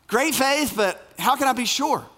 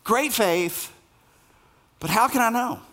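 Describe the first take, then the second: First: Mocking doubt, higher. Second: Mocking doubt. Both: Shown as a demonstration. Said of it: "For a man of great faith, it seems like he has quite a bit of doubt".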